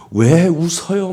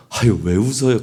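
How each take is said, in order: First: Drawn-out, louder and higher mock-angry challenge. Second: Imitating a good-natured, curious question; friendly curiosity. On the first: Bystander confronting someone who is giggling, mock angry. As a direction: imitate someone demanding an explanation, indignantly. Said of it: "막 화를 내면서". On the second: Bystander to someone giggling beside them, friendly curiosity. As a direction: lightly ask as if wanting in on the joke. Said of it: "막 실실 웃는데 옆에 와서 막 화를 내면서".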